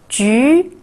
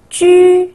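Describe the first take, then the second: First: The pitch rises from mid to high. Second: The pitch stays high and level.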